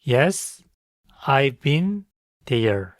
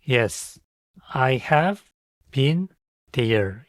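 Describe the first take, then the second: First: 'I have' is shortened to one syllable. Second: 'I have' is said as two full words.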